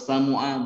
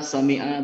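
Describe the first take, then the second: First: The vowel after the m is u. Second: The vowel after the m is i. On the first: The speaker calls it wrong. "atau samu'a bukan" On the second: The speaker calls it right. "itu saya dengar sami'a"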